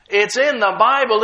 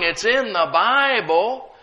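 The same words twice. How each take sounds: First: "in" hit hard, tune falling, louder; falling, louder "It's in the Bible", settling it; lightly mimicked doubter, "in" stamped down firmly; mock doubter, insisting. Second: "in" lifted, tune rising as if asking; a rising "it's in the Bible", half questioning; lightly mimicked doubter, "in" leaned on and lifted; mock doubter, rising. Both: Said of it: "But most people say".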